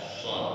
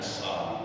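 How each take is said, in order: First: The s sound is heavy, with the tongue curled. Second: The s sound is light and plain. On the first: The speaker calls it right. "lipetin ke atas" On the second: The speaker calls it wrong.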